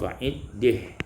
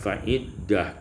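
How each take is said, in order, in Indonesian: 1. Vokal sebelum h akhir cenderung ke e. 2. Vokal sebelum h akhir adalah a terbuka.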